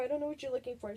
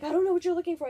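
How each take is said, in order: First: Said in the usual way. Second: Louder, higher, exasperated mom; flustered mom. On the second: Retold or imitated. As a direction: blurt it out, flustered.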